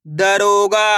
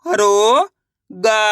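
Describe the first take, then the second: First: Said in the usual way. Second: दरोगा split up, stretched and rising; syllable by syllable. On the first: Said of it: "इनको आपस में लाकर पढ़ना है". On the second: Shown as a demonstration. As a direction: sound out दरोगा slowly in pieces. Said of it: "एक अक्षर का उच्चारण करके". (दरोगा को अक्षर-अक्षर तोड़कर)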